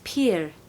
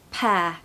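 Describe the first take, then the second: First: The vowel rhymes with peer. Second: The vowel rhymes with hair. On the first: The speaker calls it wrong. "I hear it being said as peer" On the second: The speaker calls it right. "like the word hair or air, and it sounds like that"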